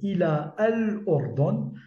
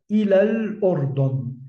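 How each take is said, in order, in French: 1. La voyelle de l'article se prononce comme une syllabe séparée. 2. La voyelle de l'article est supprimée, et elle se lie directement au lam. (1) "Je n'ai pas prononcé ila al ordon, je n'ai pas prononcé le alif" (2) "j'ai directement prononcé le lam de l'article défini"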